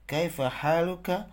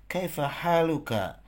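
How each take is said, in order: First: Kaifa haluka said with a rising tune, pitched higher; rising question. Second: Kaifa haluka said with a falling tune; falling question. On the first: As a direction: lift haluka up at the end as a real question. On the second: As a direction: let the voice drop on haluka. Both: Shown as a demonstration. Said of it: "teacher models the greeting question".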